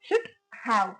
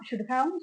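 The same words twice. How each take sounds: First: The two words are said separately. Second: The two words are run together. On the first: "பிரிச்சு சொல்லும் போது" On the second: "இதை நம்ம சேர்த்தே சொல்லலாம்"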